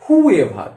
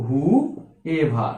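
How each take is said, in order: First: Whoever said in one quick piece; joined as one. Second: Whoever drawn out low, who held apart from ever; two separate parts. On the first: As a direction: say whoever as one word without a break. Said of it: "হুর সাথে attach থাকবে". (whoever একটানা একসাথে বলা) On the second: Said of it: "এভারটা কিন্তু হুর সাথে attach থাকবে". (whoever ভেঙে who আর ever আলাদা করে বলা) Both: Shown as a demonstration.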